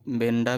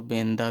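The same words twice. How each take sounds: First: "बेंडा" with a hard retroflex ḍ; "बेंडा", ben-ḍa with retroflex sound; retroflex D variant. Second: "बेंदा", ben-da with dental sound; dental D variant. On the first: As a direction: say "बेंडा" with the tongue curled back for ḍ. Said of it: "बेंडा भी बोल दो". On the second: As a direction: say "बेंदा" with the tongue on the teeth for d. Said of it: "इसको बेंदा भी बोल दो". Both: Shown as a demonstration.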